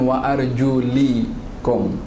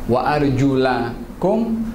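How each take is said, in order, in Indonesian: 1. Vokal setelah 'arjul' adalah bunyi 'i'. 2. Vokal setelah 'arjul' adalah bunyi 'a'. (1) "baris bawah" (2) "Baris atas"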